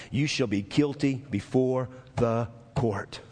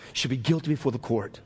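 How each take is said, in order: First: Measured, low delivery with GUILTY set apart; slow, weighty reading. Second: Quicker restatement. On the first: Preacher reading the verdict to the church, slow and weighty. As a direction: spell out the verdict slowly, word by word. Scripture line slowed for weight. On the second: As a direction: run the verdict together without pauses. Same line repeated more quickly. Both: Real, not acted.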